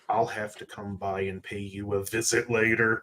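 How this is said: The voice sounds chilling and threatening.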